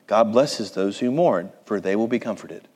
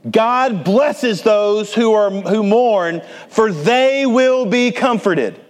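First: It is read quietly and plainly. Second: It is read loudly and forcefully. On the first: It is an ordinary statement. The speaker calls it wrong. "You probably read it like this" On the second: It is a proclamation. The speaker calls it right. "It is a loud proclamation"

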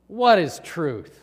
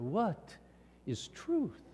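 First: It sounds dismissive and sneering. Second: It sounds thoughtful and sincerely questioning. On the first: He doubts that truth exists or matters. "I suspect he was cynical" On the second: He genuinely wonders what truth is. "like the Greek philosopher"

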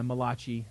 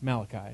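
First: The name is said with an Italian-sounding accent. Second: The name is said with a plain English accent. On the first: The prophet is jokingly made out to be Italian. The speaker calls it wrong. "who is the Italian prophet. I'm kidding" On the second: The prophet's name is given normally. The speaker calls it right. "It's Malachi"

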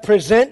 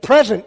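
First: The stress is on the second syllable. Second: The stress is on the first syllable. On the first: It means to offer or put forward. "instead of present your bodies" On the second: It means a gift given freely. "let's change how we put the emphasis on the syllables here"

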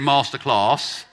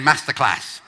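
First: It is said in a Southern English accent. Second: It is said in a Northern English accent. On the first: "go Southern with Ben and say Masterclass" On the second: "go Northern with the rest of them and say Masterclass"

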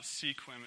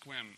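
First: The word is said with two syllables. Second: The word is said with one syllable. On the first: The speaker calls it wrong. "It's not Sequim" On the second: The speaker calls it right. "it's Squim"

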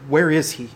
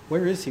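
First: It sounds scornful and despising. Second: It sounds friendly and curious.

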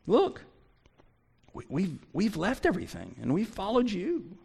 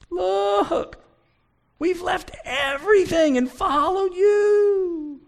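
First: It is said in a confident, matter-of-fact tone. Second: It is said in a pleading, whimpering tone. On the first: The speaker is simply stating what was given up. The speaker calls it right. "I would choose the second way" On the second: The speaker is complaining about what was given up. The speaker calls it wrong. "I don't believe he's fussing. I don't believe he's pleading. I don't believe he's whimpering. You can read it that way"

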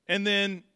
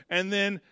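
No difference in how they are said.

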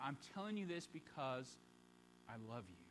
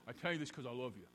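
First: It sounds tender and brokenhearted, full of feeling. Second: It sounds cold and curt, without feeling.

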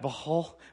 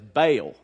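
First: It has a huffy, guttural sound from the throat. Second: It is said plainly, in a Southern American way. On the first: It imitates the original Hebrew pronunciation. "this little huffy puffy guttural thing" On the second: It is the pronunciation learned growing up. "I was born in the South, and so we learned it as Baal"

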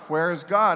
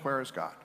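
First: It is asked at a louder level. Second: It is asked at a quieter level.

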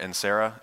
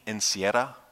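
First: The surname is said with a West Texas accent. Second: The surname is said without a West Texas accent.

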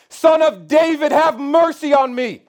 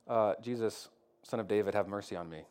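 First: It is shouted loudly and harshly. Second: It is said quietly and meekly.

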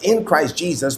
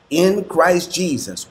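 First: The phrase is read at a normal pace. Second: The phrase is read slowly and deliberately.

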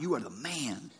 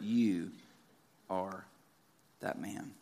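First: It sounds like friendly praise. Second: It sounds like a grave accusation.

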